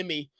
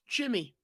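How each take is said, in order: First: The name begins with a Y sound. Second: The name begins with a J sound. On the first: "that'd be Yimmy, ... it starts with a Y" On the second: "Pronounced Jimmy"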